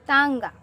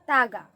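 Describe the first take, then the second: First: The first vowel is nasalized. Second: The first vowel is oral, without nasalization. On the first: The speaker calls it right. "सही जगह पे चंद्र बिंदु लगाना है" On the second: The speaker calls it wrong. "तागा नहीं पढ़े थे हमने"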